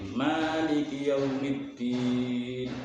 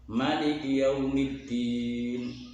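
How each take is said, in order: First: The first vowel of Maliki is long. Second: The first vowel of Maliki is short. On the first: "membaca dengan isbatul alif" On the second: "membacanya bi ghairil alif"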